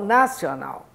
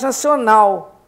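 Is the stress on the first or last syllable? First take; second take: first; last. First: The stress is on the first syllable. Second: The stress is on the last syllable. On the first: The speaker calls it wrong. "porque é national" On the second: The speaker calls it right. "que é oxítono"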